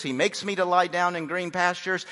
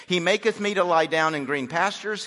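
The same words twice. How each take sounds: First: Said in the usual way. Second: Put-on "maketh" said with the old -eth ending; old King James reading. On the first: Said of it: "so we take off the T H". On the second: Shown as a demonstration. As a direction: sound the TH of "maketh" clearly. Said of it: "that's our King James".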